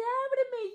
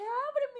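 First: High, firm "Ábreme" with a falling end; firm mentor. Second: High, firm "Ábreme" falling; firm mentor. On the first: Mentor tells her to open the door, high and firm. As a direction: order her to open up, kindly. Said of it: "me dice". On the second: Mentor repeats the order to open the door, high and firm. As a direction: insist she open up. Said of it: "Y me dice". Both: Retold or imitated.

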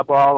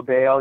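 First: Baal rhyming with "tall"; Baal like "ball". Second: Baal rhyming with "sail"; Baal like "bale". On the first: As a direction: say Baal with an "aw" vowel. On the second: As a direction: say Baal with a long "ay" vowel. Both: Shown as a demonstration. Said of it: "I believe it's pronounced".

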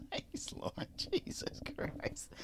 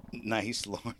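First: Breathy whisper, slow, under the breath; hushed teasing whisper about a fart; whispered aside. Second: Said in the usual way. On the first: Real, not acted. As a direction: mutter it so the mic barely catches it. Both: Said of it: "Is that story that shitty? You have to fart on air?".

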